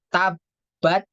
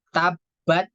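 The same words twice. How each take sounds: No difference in how they are said.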